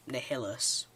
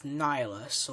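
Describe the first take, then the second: First: Nihilus said as nih-HILL-us; alternative pronunciation. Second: Nihilus said as NIGH-lus; preferred pronunciation. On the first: Fan offering the other reading of a Sith name, Nihilus as nih-HILL-us. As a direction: say Nihilus with the stress on a middle "hill". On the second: Fan giving his own reading of a Sith name, Nihilus as NIGH-lus. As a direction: say Nihilus with a long "eye" in the first syllable. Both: Shown as a demonstration. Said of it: "Whichever way you pronounce it".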